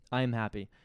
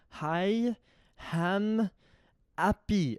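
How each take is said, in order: First: The words start with plain vowels, no h. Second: An extra h sound starts the first two words. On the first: The speaker calls it right. "He was trying to say I am happy" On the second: The speaker calls it wrong. "they put H's where they're not supposed to be"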